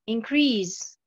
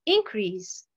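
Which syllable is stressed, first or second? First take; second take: second; first. First: The stress is on the second syllable. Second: The stress is on the first syllable. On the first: It is a verb. "la première colonne, pratiquement, j'ai l'accentuation sur la deuxième syllabe" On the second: It is a noun. "la deuxième colonne, nous avons l'accentuation sur la première syllabe"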